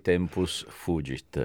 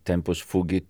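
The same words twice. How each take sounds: First: The phrase is pronounced in the Italian way. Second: The phrase is pronounced in the German way. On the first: This is how Italians say it. "We say tempus fugit" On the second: This is how Germans and Austrians say it. "It is the way the Germans and the Austrians okay. Say"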